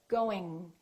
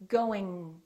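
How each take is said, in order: No difference in how they are said.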